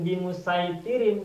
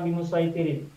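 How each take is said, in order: First: The s sound is plain and light. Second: The s sound is emphatic and heavy. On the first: The speaker calls it right. "seharusnya bacanya di musaitirin" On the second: The speaker calls it wrong. "bukan bimusaitirin"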